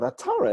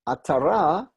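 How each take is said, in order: First: The stress is on the middle syllable. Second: The stress is on the last syllable. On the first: It is a person's name. "the way people pronounce the name" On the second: It is the word for a crown. "Atara means a crown"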